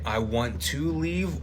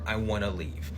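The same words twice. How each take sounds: First: The word 'to' is said in full. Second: The word 'to' is reduced to a vowel.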